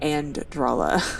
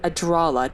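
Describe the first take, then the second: First: It is said with an n before the d. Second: It is said with no n before the d. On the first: The speaker calls it wrong. "not Andralla" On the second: The speaker calls it right. "it's Adralla"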